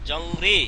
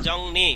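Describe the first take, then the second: First: The second syllable starts with an R sound. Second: The second syllable starts with an N sound. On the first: The speaker calls it wrong. "জংরি, নাকি" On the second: The speaker calls it right. "রিউলের উচ্চারণটা ন"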